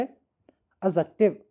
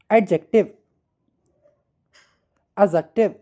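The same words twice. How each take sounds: First: एडजेक्टिव drawn out slowly, syllable by syllable, the d nearly silent; slow model word. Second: Loud, clear model of एडजेक्टिव with the d sounded lightly; model pronunciation. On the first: Teacher slowly repeating एडजेक्टिव for students to echo. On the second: Teacher modelling एडजेक्टिव loudly for students. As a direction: call out एडजेक्टिव for the class to copy. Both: Shown as a demonstration. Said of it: "बोले एडजेक्टिव".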